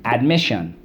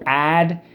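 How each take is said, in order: First: Said in the usual way. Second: "Admission" broken into AD, MISS, SHUN; syllable by syllable. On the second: Shown as a demonstration. Teacher showing class how to sound it out, syllable by syllable. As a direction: punch each separate syllable of "Admission". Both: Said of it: "let's go".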